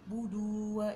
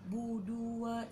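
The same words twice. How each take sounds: No difference in how they are said.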